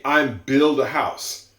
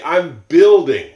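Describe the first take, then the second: First: "I'm build a house" without the ing; the wrong way, "build" bare; slow example of the mistake, "I'm build"; wrong form demo. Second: "building" stressed and louder, slow; slow, careful "building" with the ing; right form demo. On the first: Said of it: "You don't say". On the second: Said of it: "You say". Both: Shown as a demonstration.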